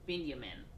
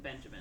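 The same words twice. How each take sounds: First: The name is said with a Y sound. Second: The name is said with a J sound. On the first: "I just said it with the Y" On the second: "I think it's basically Benjamin"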